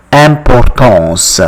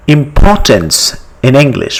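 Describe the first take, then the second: First: Importance with nasal French vowels, stress at the end; French pronunciation. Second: Said in the usual way. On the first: Shown as a demonstration. Teacher contrasting the French word with English, French pronunciation. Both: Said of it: "but you pronounce it as".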